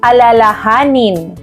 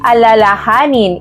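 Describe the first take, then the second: First: The stress falls on the second-to-last syllable. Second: The stress falls on the second-to-last syllable.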